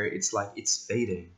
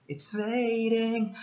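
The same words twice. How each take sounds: First: Said in the usual way. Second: It's fading said very high and slow, fading long and floating; swooping high slow It's fading; drawn-out fading. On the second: Shown as a demonstration. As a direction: stretch out fading up high as if it fades away.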